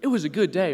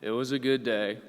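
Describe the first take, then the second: First: It sounds bright and enthusiastic. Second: It sounds hesitant and unconvinced. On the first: The day was great. "which means it was a great day" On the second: The day was only average. "which means it wasn't a good day"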